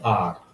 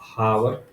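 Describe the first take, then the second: First: The word begins with a vowel, no h. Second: The word begins with an audible h sound. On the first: The speaker calls it right. "इसको बोलते हैं आर" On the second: The speaker calls it wrong. "इसको बोलना चाहिए हावर"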